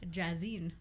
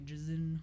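First: The name is said carefully and fully. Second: The name is said lazily and slurred. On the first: The speaker calls it right. "So I gotta really pronounce it" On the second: The speaker calls it wrong. "If I say my name too lazily"

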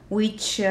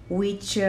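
No difference in how they are said.

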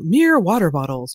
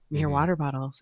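First: It sounds like a fake, put-on ad read. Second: It sounds casual, like normal conversation. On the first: "you either sound fake, like I just did" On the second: "you want to get that conversational"

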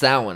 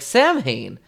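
First: The name does not begin with 'Sam'. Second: The name begins with a clear 'Sam' sound. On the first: This is the established pronunciation of the name. The speaker calls it right. "it's pronounced Samhain" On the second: This is how the name is said in the earlier films. The speaker calls it wrong. "Sam what?"

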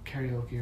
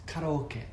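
First: It is said with an American accent. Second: It is said with a Japanese accent. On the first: "It hurts me to say karaoke with an American accent" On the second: "Go ahead and say it in Japanese"

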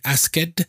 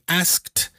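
First: The ending is an extra full syllable. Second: The ending is a plain t, one syllable. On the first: The speaker calls it wrong. "They normally pronounce the ED endings as a full syllable" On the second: The speaker calls it right. "instead of saying asked"

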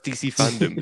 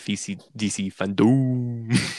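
First: The last syllable is reduced, like 'dum'. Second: The last syllable is a full 'dome'. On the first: "it was DC Fandome" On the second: "they changed it to DC Fandome. Because look, it's a dome"

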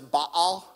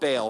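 First: Baal is said with the scholarly original pronunciation. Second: Baal is said with the familiar everyday pronunciation. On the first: The speaker calls it right. "he actually taught me that it's Baal" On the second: The speaker calls it wrong. "We've been saying it wrong all along if you grew up in church"

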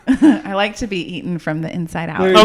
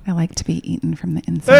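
First: The voice is at its normal pitch. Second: The voice is pushed down very deep.

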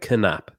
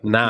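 First: The K at the start is pronounced. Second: The K at the start is silent. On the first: "Do you say the K in your name?" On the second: "Or like nap, yeah, as in I went for a nap?"

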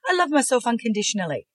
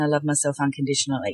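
First: It sounds firmer and more confident. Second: It sounds flat and unconvinced.

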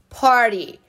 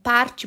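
First: The middle consonant is a quick r-like tap. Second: The middle consonant is a clear t sound. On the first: "Por que esse T tem som de R?" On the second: "Se escreve P-A-R-T-Y"

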